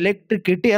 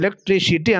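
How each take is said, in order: First: The third syllable uses a K sound. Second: The third syllable uses an S sound. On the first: The speaker calls it wrong. "ಎಲೆಕ್ಟ್ರಿಕಿಟಿ ಅಲ್ಲ ಅದು" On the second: The speaker calls it right. "ಎಲೆಕ್ಟ್ರಿಸಿಟಿ ಅಂತ"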